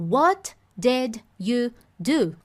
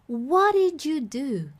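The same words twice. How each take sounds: First: Each word is said separately, one by one. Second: The words are run together in one flow.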